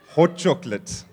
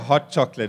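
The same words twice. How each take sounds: First: It is said in a local Bloemfontein accent. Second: It is said in a standard accent. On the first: "it's hot. Hot chocolate" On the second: "They don't say hot chocolate"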